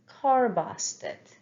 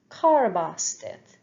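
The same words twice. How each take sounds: The two takes are said the same way.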